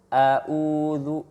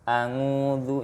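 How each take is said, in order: First: The middle consonant is a glottal stop. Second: The middle consonant is an ng sound. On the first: "mengganti huruf ain dengan hamzah" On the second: "melafalkan huruf ain seperti huruf ang ya, huruf ng"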